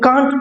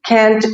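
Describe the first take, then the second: First: It is said in a British accent. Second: It is said in an American accent. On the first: "British English में, हम इसे कांट pronounce करते हैं" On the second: "north American English में हम इसे कैंट बोलते हैं"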